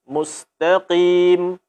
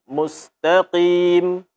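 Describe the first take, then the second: No difference in how they are said.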